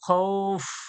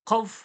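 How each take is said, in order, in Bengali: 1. স্বরধ্বনিটি অতিরিক্ত এক মাত্রা ধরে রাখা হয়। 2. স্বরধ্বনিটি না থেমে সংক্ষেপে উচ্চারিত হয়। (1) "পরিপূর্ণ শুদ্ধ শুদ্ধ আওয়াজ আসছে।" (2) "বললে কিছু হবে?"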